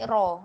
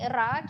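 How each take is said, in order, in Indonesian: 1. Suku kata ra terdengar tebal dan berat. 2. Suku kata ra terdengar tipis dan ringan. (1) "kita nak bunyi raw" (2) "kita tak nak bunyi ra"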